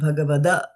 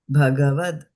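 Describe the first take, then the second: First: The word ends with an extra vowel sound. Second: The word ends in a consonant sound. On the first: The speaker calls it wrong. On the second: The speaker calls it right.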